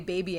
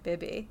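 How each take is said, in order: First: The word is said in a plain everyday accent. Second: The word is said in an exaggerated put-on accent. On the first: "we don't say baby anymore" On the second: "I just can only pronounce it as Moira would"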